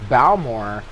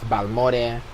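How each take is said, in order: First: The name is said with an English pronunciation. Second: The name is said with a Spanish pronunciation.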